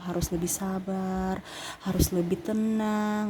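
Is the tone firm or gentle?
gentle. It is said in a soft, gentle tone. The listener will not take it seriously. The speaker calls it wrong. "kalau intonasinya iya Scorpio ... nggak bisa"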